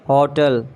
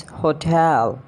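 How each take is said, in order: First: "Hotel" as HO-tul; mispronounced hotel. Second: "hotel" as ho-TEL; British pronunciation. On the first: Acted. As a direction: stress HO in "Hotel". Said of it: "not a hotel". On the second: Shown as a demonstration. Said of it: "It's hotel".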